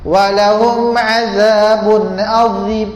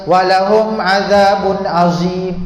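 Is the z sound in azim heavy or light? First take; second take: heavy; light. First: The z in azim is heavy and thick. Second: The z in azim is light and thin. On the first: The speaker calls it right. "Azim za tu tebal" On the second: The speaker calls it wrong. "kurang tepat"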